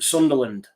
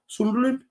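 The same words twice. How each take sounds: First: It is said in his normal accent. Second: It is said in a Birmingham accent. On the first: The speaker calls it right. "I just need to talk normal" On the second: The speaker calls it wrong. "I don't know why I did that in a Brummie accent"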